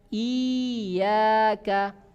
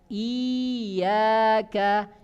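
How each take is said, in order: Both takes have the same delivery.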